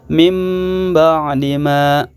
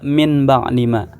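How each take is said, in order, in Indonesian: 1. Bunyi sengau sebelum b adalah bunyi m. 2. Bunyi sengau sebelum b adalah bunyi n. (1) "tetapi dibaca mim ba'di ma" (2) "Tidak boleh dibaca"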